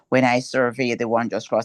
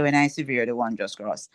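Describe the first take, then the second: First: The key word sounds like 'survey'. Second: The key word sounds like 'severe'. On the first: The speaker calls it right. "that's the very word that we are talking about" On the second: The speaker calls it wrong. "we really don't say"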